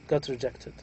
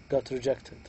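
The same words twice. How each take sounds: No difference in how they are said.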